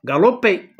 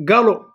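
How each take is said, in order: First: غالوبي with a clear p before the final é; the feminine form with the p pronounced; galopé, p sounded. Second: غالو said with no final p; galop, silent p. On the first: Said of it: "ملي حولناها عرفنا بأن بي في لو ما تنطق". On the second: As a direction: stop on the o of غالو. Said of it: "دونك بي ما تنطقاش". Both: Shown as a demonstration.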